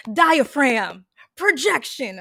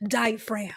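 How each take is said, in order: First: Loud stage voice from the diaphragm; theater projection. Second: Said in the usual way. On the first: Shown as a demonstration. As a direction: project it to the back row. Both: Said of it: "my default truly is".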